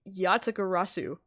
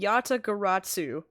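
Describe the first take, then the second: First: No t sound comes before the final syllable. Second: A t sound comes before the final syllable.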